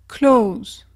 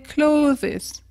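First: The ending is not sounded as an extra syllable. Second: The ending is sounded as an extra syllable. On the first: The speaker calls it right. "comme le verbe close" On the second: The speaker calls it wrong. "prononcer le E S à la fin"

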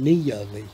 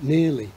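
First: The vowel glides as two parts, almost two syllables. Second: The vowel is smoothed into one short sound. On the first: This is a form the speaker's native accent avoids. "Rather than nearly" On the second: This is the form in the speaker's native accent. "in my accent, I would have near, but nearly"

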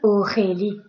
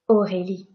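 First: The R is harsh and strongly rasped in the throat. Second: The R is soft with a small vibration. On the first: The speaker calls it wrong. "I am not saying Aurélie. If I say that, I am hurting my throat" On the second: The speaker calls it right. "It's a very small vibration"

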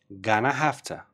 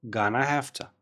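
No difference in how they are said.

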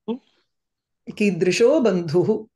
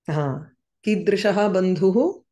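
First: The first word ends in a contracted 'o' sound. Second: The first word ends in a full 'aha' sound.

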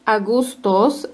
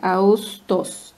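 First: A g sound is heard in the middle. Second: No g sound; the vowel is lengthened instead. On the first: The speaker calls it wrong. "No es Augustos" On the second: The speaker calls it right. "Esta yumusha que no suena. Solamente como que la U se alarga"

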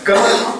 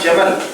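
First: The word begins with a g sound. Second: The word begins with a j sound. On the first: The speaker calls it wrong. "சிலவங்க கமல் நடுவாங்க" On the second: The speaker calls it right. "உதாரணமா ஜமல்"

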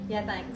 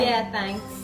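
First: The phrase is said quickly and unclearly. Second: The phrase is said slowly and clearly. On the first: The speaker calls it wrong. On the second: The speaker calls it right.

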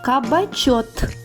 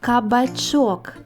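First: The word ends with a t sound. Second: The word ends with a k sound. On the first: The speaker calls it wrong. "виправіть помилки у словах" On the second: The speaker calls it right. "Як буде вірно?"

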